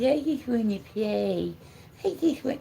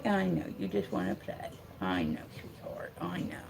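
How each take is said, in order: First: Put-on higher dog voice; pleading puppy. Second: Soft, low aside to a pet; gentle, hushed sympathy; soothing. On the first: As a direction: voice the dog begging to play. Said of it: "He says". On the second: Real, not acted. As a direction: quietly console the puppy. Consoling the dog after its plea.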